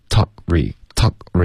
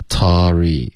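First: "Talk re" with a clean held k before re; crisp stop. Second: "talk re" slurred into "Tory" with no k; no stop. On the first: Shown as a demonstration. Teacher models for student, crisp break. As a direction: cut the air after "Talk", then say "re". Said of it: "一定要干脆". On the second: Retold or imitated. Teacher shows student the wrong way, stopless "Tory". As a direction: glide through without closing the k. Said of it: "这样不行".

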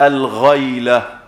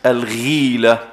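First: الغيلة said slowly as al-ghayla, with an open a; الغيلة with fatha, al-ghayla, drawn out slowly; Abu Dawud's reading with fatha. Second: الغيلة said slowly as al-ghila, with a long i; الغيلة with kasra, al-ghiila, drawn out slowly; Muslim's reading with kasra. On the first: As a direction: contrast الغيلة as al-ghayla against al-ghila. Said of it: "لفظ أبي داود بالفتح". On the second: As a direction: spell out الغيلة as al-ghila for the class. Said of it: "لفظ مسلم بالكسر". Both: Shown as a demonstration.

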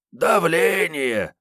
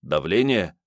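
First: High, slow mocking echo of the word; mocking mimicry. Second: Said in the usual way. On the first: Kiryay mocking Sergey's guess, slow high mimicry. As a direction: throw his guess back at him. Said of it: "передразнил Киряй". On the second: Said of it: "предположил Карташов".

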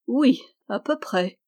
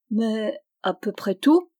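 First: Teasing, knowing reply; the princess teasing the knight, slyly. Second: Hesitant, embarrassed question; a young knight stammering, embarrassed, to the princess. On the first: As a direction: answer with a mischievous, knowing edge. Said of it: "reprit-elle d'un air malin". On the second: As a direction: stammer it out, caught out and unsure. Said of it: "balbutia-t-il, embarrassé". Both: A narrator's reading.

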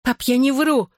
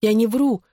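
First: High-pitched cry, restrained in volume. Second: Higher-pitched, squeezed-out denial; forced out. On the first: Daughter under father's heavy hand, crying out desperately. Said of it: "выкрикнула я". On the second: Frightened daughter denies lying to father, forced out. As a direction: squeeze it out under pressure, without shouting. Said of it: "выдавила я". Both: A narrator's reading.

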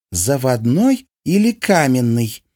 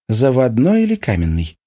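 First: Drawn-out haughty repeat. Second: Haughty question. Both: A narrator's reading. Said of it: "свысока спросила его Анастасийка".

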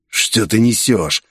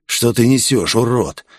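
First: Slow, mild growl on «несёшь». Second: Said in the usual way. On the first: A narrator's reading. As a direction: drag it out with a light snarl. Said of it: "прорычал Виктор".

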